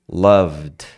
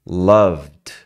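No difference in how they are said.

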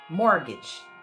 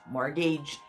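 First: The last syllable has a short i sound. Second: The last syllable sounds like the word age. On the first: The speaker calls it right. "você vai pronunciar como se fosse um i curtinho" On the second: The speaker calls it wrong. "se eu falo age aqui eu falo average, courage, mortgage"

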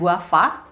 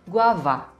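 First: The middle consonant sounds like an f. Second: The middle consonant is a voiced v. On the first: The speaker calls it wrong. "Bukan guava" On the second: The speaker calls it right. "tapi guava. V"

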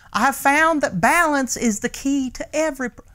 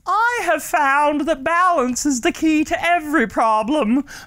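First: It is said in the reader's usual voice. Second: It is said in a different put-on voice.

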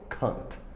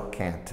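First: It is said with a British accent. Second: It is said with an American accent.

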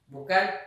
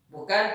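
Both takes have the same delivery.

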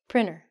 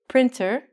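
First: The T sound is dropped after the N. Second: The T sound is clearly pronounced. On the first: The speaker calls it right. "We say printer" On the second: The speaker calls it wrong. "We don't say printer"

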